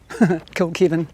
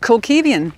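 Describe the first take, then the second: First: There is no extra syllable after the v. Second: An extra 'ee' syllable follows the v.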